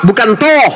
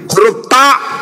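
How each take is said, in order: First: The vowel is a rounded 'o' sound. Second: The vowel is an open 'a' sound. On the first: The speaker calls it wrong. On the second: The speaker calls it right.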